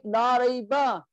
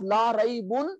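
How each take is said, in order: First: "rayba" ending in an open a; emphatic negation form. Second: "raybun" with the -un ending sounded; normal negation form. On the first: Teacher contrasting negations, light -a ending on "rayba". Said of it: "You make it the highly emphatic negation". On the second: Teacher contrasting negations, heavy -un ending on "raybun". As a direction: close "raybun" on a clear n. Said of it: "which was normal negation". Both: Shown as a demonstration.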